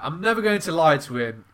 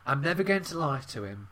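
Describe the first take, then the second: First: It is said in an exaggerated camp voice. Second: It is said in a put-on British accent. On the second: "I'm doing it in a British voice"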